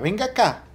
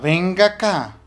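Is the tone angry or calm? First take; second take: calm; angry. First: It is said in a calm, friendly tone. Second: It is said in an angry, threatening tone. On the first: A simple, harmless call to come over. "estemos en el patio de la casa jugando tranquilos" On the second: The child is in trouble and will be punished. "llegue con una chancleta en la mano"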